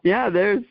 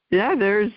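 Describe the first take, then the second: No difference in how they are said.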